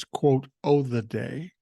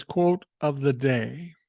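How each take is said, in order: First: "o'" clipped down to a casual "oh" sound; dropped F in "o'". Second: Said in the usual way. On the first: Shown as a demonstration. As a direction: say "o'" as a bare vowel, no F. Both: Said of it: "Or actually, he says".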